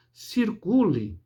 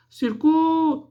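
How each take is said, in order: First: Said in the usual way. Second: "Circule" chamado agudo, "CU" longo e intenso; chamamento com sílaba tônica forte. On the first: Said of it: "a sílaba tônica da palavra". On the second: Shown as a demonstration. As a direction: esticar o "cu" de "Circule", como quem chama alguém. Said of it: "o C e o U". ("Circule" em chamamento, sílaba "cu" elevada e prolongada)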